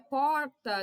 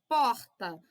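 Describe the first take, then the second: First: The R is said in the São Paulo way. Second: The R is said in the Rio de Janeiro way.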